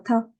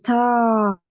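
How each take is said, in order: First: The vowel is short and clipped. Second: The vowel is drawn out long. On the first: The speaker calls it wrong. "Je prononce pas ta" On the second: The speaker calls it right. "je dis ta"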